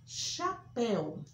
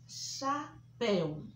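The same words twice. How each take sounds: First: Chapéu with open final é. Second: Chapéu drawn out slowly, open é; slow demo. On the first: (chapéu com é aberto) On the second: (chapéu bem devagar, é aberto) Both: Shown as a demonstration. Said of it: "som aberto".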